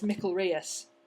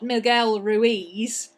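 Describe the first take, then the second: First: It is said as Miquelrius, with a k. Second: It is said like Miguel Ruiz, with a g. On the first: The speaker calls it right. "It's Spanish, so it's Miquelrius" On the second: The speaker calls it wrong. "you're pronouncing it Miguel Ruiz, and that's the Mexican version"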